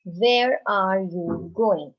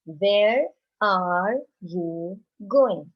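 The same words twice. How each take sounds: First: Slow, spaced questioning read-aloud; teacher modelling a question; slow model question. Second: Very slow repeated question; teacher repeating the question; slow repeat for class. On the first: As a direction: ask it slowly for the class to follow. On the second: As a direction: repeat it even more slowly for the children. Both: Shown as a demonstration. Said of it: "another sentence".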